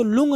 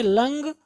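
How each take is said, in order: First: लुंग with an "oo" vowel; mistaken pronunciation. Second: लंग with an "uh" vowel; correct pronunciation. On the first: Teacher warns students off it, लुंग as "loong". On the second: Teacher gives the right reading, लंग as "lung". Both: Shown as a demonstration. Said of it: "इसको लुंग नहीं पढ़ेंगे".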